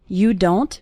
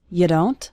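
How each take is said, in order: First: Both words are said fully and separately. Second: The words are reduced and run together.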